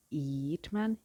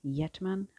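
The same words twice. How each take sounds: First: "Yeatman" said slowly as YEET-man; unsure pronunciation, YEET. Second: "Yeatman" said as YET-man, questioning; unsure pronunciation, YET. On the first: Guessing at the author's name, "Yeatman" as YEET-man. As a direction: say "Yeatman" with a long ee. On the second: Second guess at the author's name, questioning "Yeatman" as YET-man. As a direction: say "Yeatman" with a short e, rising. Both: Shown as a demonstration. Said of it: "I don't know".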